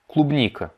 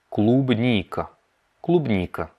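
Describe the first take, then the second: First: Said in the usual way. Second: "клубника" drawn out syllable by syllable; slowed-down model. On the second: Shown as a demonstration. Teacher breaks down the Russian for strawberry, very slow. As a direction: stretch "клубника" slowly, long stressed "ни".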